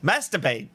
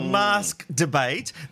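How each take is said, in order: First: The K sound in mask is dropped. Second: The K sound in mask is pronounced.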